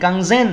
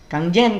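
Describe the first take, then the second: First: The second word starts with a Z sound. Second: The second word starts with a J sound. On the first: "nah itu pakai Z" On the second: "nah itu berarti pakai J"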